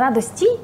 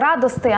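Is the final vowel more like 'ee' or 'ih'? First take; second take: ee; ih. First: The word ends in an 'ee' vowel. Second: The word ends in an 'ih' vowel. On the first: This is the form people supposedly use but rarely say. "а не радості" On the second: This is the form people naturally use in speech. "Ми ж самі кажемо часто оцей радости"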